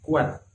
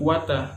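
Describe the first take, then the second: First: The word ends cleanly on the t sound. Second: The word ends with an added vowel and h. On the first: The speaker calls it right. "tetapi kuat" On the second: The speaker calls it wrong. "Enggak disambungkan kuatah"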